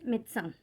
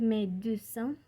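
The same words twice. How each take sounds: First: The middle e sound is dropped. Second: The middle e sound is pronounced. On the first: This is the usual way to say it. "pero normalmente es" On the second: This is how it is said in southern France. "En el sur sí lo llegan a decir"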